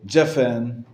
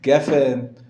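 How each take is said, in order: First: The word begins with a J sound. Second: The word begins with a hard G sound.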